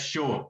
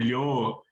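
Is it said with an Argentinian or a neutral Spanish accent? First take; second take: Argentinian; neutral. First: It starts with an 'sh' sound, Argentinian. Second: It starts with a 'y' sound, neutral Spanish.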